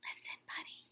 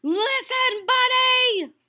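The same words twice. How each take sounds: First: Soft unvoiced whisper. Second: Loud high yell of his name. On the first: Parents whispering to Buddy, hushed whisper. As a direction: breathe it, no voice at all. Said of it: "They tried whispering". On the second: Acted. Parents yelling for Buddy, loud and high. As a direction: yell it across the yard. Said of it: "His parents tried yelling".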